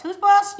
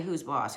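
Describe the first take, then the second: First: High, loud challenge; mock bossy shout. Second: Said in the usual way. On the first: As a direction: demand it at full volume, playfully bossy. Mock bossing the rose around.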